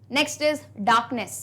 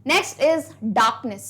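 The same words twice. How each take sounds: First: Slow dictation repeat. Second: Slow dictation. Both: Shown as a demonstration. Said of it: "चलिए".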